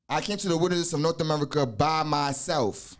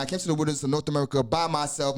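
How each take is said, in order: First: Deliberate quoting of a memorized lesson; measured recitation. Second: Fast, even run-through of a learned text; rapid recitation. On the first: Teacher quoting a degree to explain it, measured recitation. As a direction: recite it evenly, giving each phrase room. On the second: Teacher running through the five degrees, rapid recitation. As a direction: rattle it off from memory. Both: Real, not acted.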